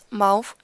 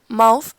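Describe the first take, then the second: First: The word ends with an f sound. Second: The word ends with a th sound. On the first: "The pronunciation of the th is often pronounced as e, f" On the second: "instead of a, th, or th"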